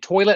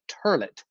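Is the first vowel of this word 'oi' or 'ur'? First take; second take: oi; ur. First: The first vowel is an 'oi' sound. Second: The first vowel is an 'ur' sound. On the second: "toilet as turlet"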